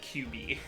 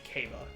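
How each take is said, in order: First: The name sounds like 'cue-bee'. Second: The name sounds like 'kaba'. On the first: The speaker calls it wrong. "But I said Q B. I did it phonetically" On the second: The speaker calls it right. "it's supposed to be Kaba"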